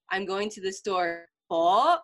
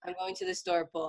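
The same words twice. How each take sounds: First: "po" hit hard and rising, as a challenge; mom's pointed correction. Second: Said in the usual way. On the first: Retold or imitated. Mom correcting a child's missing honorific, pointed prompting. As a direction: echo it slowly, then a loud questioning "po?". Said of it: "then she would be like". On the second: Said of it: "and I'm like".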